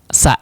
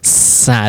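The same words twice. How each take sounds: First: The s is cut short before the vowel. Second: The s is held before the vowel. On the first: The speaker calls it wrong. "tidak langsung sa" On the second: The speaker calls it right. "ada s-nya dulu ya"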